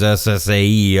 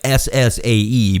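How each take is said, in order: First: The letters run together in a southern accent. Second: Each letter is said separately and clearly. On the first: "my southern accent just makes it come out as S S A E otherwise" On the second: "I'm saying it like S S A E"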